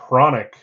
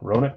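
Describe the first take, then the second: First: The name begins with an audible H sound. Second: The name begins without any H sound. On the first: "It's it's uh" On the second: "The H must be silent"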